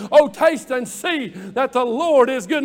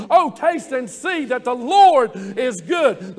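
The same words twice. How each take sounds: First: Said in the usual way. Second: Fuller, more emphatic, leaning into LORD; said like you mean it. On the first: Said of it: "Say that with me". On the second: Shown as a demonstration. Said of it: "Now say it like you mean it".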